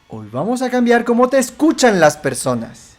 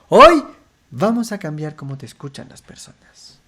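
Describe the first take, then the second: First: The sentence starts low in pitch. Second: The sentence starts high in pitch. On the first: "Empezamos bajo" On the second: "Empezamos alto"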